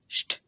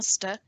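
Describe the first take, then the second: First: The sound starts with sh. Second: The sound starts with a plain s. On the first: The speaker calls it right. "it's a sht" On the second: The speaker calls it wrong. "it's not a st"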